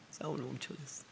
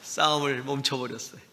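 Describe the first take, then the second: First: 싸움을 멈춰버렸어요 said again much softer, almost breathed; hushed repeat. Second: Said in the usual way. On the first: Real, not acted. Repeating to the congregation that he stopped fighting, hushed. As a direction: let the line sink into a soft murmur.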